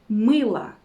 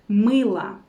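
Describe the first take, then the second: The two takes are said the same way.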